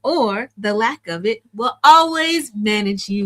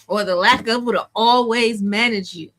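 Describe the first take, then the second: First: It is said more slowly. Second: It is said very fast.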